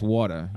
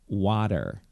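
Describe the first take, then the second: First: It is said in a New York accent. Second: It is said in a General American accent. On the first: This is how the speaker naturally says it. The speaker calls it wrong. "my New York accent is water" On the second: This is how the client wants it said. The speaker calls it right. "it's pronounced water"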